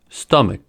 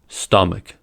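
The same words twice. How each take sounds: First: The final k is held without release. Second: The final k is audibly released. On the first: "Unreleased K" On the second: "Released K"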